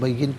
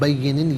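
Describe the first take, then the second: First: The word ends on a bare 'n' sound. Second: The word ends with the sound 'nin'. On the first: The reader stops at this word. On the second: The reading continues without stopping.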